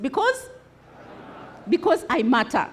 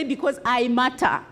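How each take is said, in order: First: Convinced. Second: Said in the usual way. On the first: Shown as a demonstration. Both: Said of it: "say it like you're convinced".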